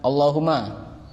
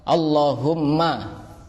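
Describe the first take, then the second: First: The m sound is short and single. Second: The m sound is held long and doubled. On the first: The speaker calls it wrong. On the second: The speaker calls it right.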